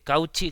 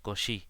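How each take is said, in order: First: It is read with plain Spanish sounds. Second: It is said with French sounds. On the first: The speaker calls it wrong. "que es como so- se diría si tú te dijeras esta palabra y en castellano" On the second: The speaker calls it right. "yo trato de pronunciarlo bien en francés"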